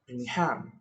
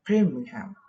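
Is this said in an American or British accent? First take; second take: American; British. First: It is said in an American English accent. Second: It is said in a British English accent. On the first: "American people would say" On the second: "English people would say"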